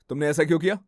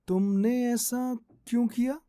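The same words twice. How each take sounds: First: The line is spoken at a fast pace. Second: The line is spoken at a slow pace. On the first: "fast" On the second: "slow"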